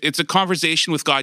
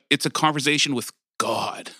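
First: The phrase is said at a normal, casual pace. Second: The phrase is said slowly with heavy emphasis. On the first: It is just an ordinary talk. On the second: The talk is with someone awe-inspiring.

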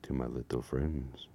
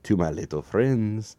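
First: It is said in a low, sultry put-on voice. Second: It is said in an unpleasant put-on voice. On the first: The speaker calls it right. "Maybe I should do my sexy voice" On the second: The speaker calls it wrong. "That was a horrible voice"

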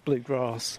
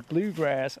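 First: It is said in a southern English accent. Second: It is said in an American accent. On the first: "Because I'm from like the south of England, so we say bluegrass" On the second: "when I hear Americans say bluegrass"

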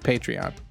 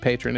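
First: The word is said with three syllables. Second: The word is said with two syllables. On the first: The speaker calls it right. "It's Patreon" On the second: The speaker calls it wrong. "I even mispronounced it. I said, kept saying patron"

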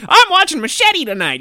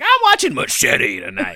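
First: It is said in an ordinary, flat speaking voice. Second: It is said in a dramatic, booming trailer voice. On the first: The speaker calls it wrong. "you should never say it with like" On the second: The speaker calls it right. "You should be like, ... It should always be like that"

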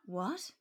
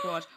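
First: It is said like a question, rising. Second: It is said like an exclamation, forceful.

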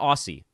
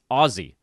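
First: The middle consonant is a soft S sound. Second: The middle consonant is a hard Z sound. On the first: The speaker calls it wrong. "not Aussie" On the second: The speaker calls it right. "I need to pronounce it with a Z"

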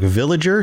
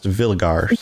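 First: The g is pronounced as a soft j sound. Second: The g is pronounced as a hard g sound. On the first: "the G's should never make a J sound" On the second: "should be pronounced villagar"

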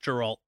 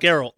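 First: The name starts with a J sound. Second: The name starts with a hard G sound. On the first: The speaker calls it wrong. "not Geralt" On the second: The speaker calls it right.

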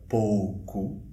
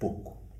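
First: The first vowel is the diphthong 'ou'. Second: The first vowel is a plain 'o', Coimbra style.

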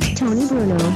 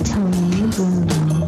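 First: It is said quickly. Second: It is said slowly.

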